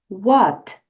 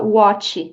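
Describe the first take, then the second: First: The final T is pronounced softly and lightly. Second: The final T is pronounced strongly and clearly. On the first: The speaker calls it right. "essa letra T aqui de what você pode pronunciar suavemente" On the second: The speaker calls it wrong. "Não diga what"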